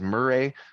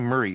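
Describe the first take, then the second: First: The name is said the way it looks spelled. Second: The name is said the British way. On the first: "to me it looks like it says Murray" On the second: "it seems like they call him Murray"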